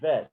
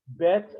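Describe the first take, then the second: First: The word begins with a V sound. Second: The word begins with a B sound. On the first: "if it didn't have the dagesh, it would be uh, pronounced vet" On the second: "the name of the letter bet"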